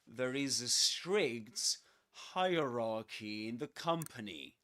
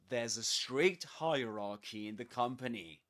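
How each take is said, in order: First: 'There is' is said as two full words. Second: 'There is' is contracted into one syllable.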